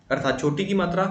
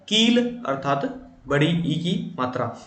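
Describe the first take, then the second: First: "छोटी" with a short, quick इ; short i vowel demo. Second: "कील" and "बड़ी ई" drawn out, slow; long ee vowel demo. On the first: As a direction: keep the vowel brief in "छोटी की मात्रा". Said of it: "दिल". (छोटी इ को जल्दी बोलें) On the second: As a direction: stretch every ई long and slow. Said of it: "इसको बोलने में समय दिल से अधिक लगा है". (बड़ी ई को खींचकर धीरे बोलें) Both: Shown as a demonstration.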